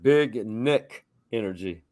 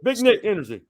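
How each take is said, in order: First: The phrase is said at a normal pace. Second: The phrase is said quickly, run together.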